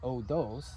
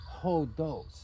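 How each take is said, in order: First: The word starts directly with the vowel. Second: The word starts with an h sound. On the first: The speaker calls it wrong. "this isn't odos" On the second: The speaker calls it right. "it is hodos"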